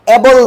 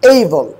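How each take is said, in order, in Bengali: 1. প্রথম স্বরধ্বনিটি একটি ছোট, সমতল 'a'। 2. প্রথম স্বরধ্বনিটি একটি 'ay' গ্লাইড। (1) "অ্যাবল নয়" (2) "হবে কি? এইবল।"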